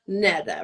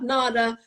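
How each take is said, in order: First: The first vowel sounds like 'eh'. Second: The first vowel sounds like 'ah'. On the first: The speaker calls it right. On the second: The speaker calls it wrong. "Not Nada"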